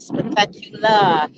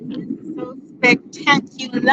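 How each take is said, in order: First: "spectacular" said slowly, each syllable given weight; emphasized word. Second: Said in the usual way. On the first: Shown as a demonstration. Visitor urging viewers to come to Africa, slow emphatic "spectacular". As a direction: lean slowly into every part of "spectacular". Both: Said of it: "I just have to emphasize that word".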